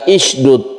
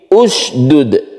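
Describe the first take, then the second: First: The word begins with an i vowel. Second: The word begins with a u vowel. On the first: The speaker calls it wrong. "bukan isydud" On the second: The speaker calls it right. "tapi usdud"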